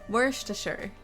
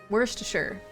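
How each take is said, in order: The two takes are said the same way.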